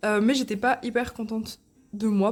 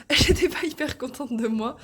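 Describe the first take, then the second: First: Hiccup breaking the words; talking through hiccups. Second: Laughing through hiccups, higher; hiccuping, laughing it off. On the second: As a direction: repeat with a laugh after a hiccup. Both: Real, not acted. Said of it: "pardon, j'ai le hoquet".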